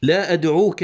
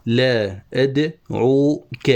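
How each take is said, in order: First: Measured, connected poetry reading; verse recitation. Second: Very slow, broken into syllables; scanning a foot. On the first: Teacher quoting the poet's line, measured recitation. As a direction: recite "لا أدعوك" as flowing verse. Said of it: "قال الشاعر". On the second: Teacher marking where the foot ends, slow scansion. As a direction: draw out "لا أدعوك" piece by piece. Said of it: "وهنا تنتهي التفعيلة". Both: Shown as a demonstration.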